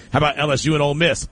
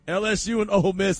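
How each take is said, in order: First: Rushed. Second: Laughing redo. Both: Real, not acted. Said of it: "Hold up, hold up".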